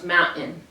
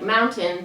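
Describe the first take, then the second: First: The t is replaced by a glottal stop. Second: The t is pronounced as a clear t.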